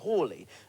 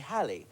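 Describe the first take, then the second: First: The first vowel is an 'aw' sound. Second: The first vowel is a short 'a' sound. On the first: "some experts, like Brian Harper, pronounce it Hawley" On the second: "but most people say Halley"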